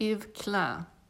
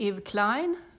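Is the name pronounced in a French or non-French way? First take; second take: French; Non-French. First: The name is pronounced in a French way. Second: The name is pronounced in a non-French way. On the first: This is how it is said in the name's own language. "Som man säger på franska" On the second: This is how many people say it. "som många säger"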